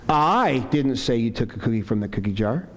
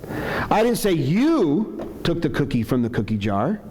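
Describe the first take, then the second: First: The word "I" carries the strongest stress. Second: The word "you" carries the strongest stress. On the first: Someone else said it. "Maybe implying somebody else said it" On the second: Someone else took it. "I'm saying maybe somebody else took it"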